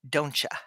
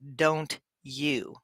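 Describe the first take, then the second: First: The second word is reduced to a weak ya. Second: The second word is a full, clear you. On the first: "We often say" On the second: "we almost never say"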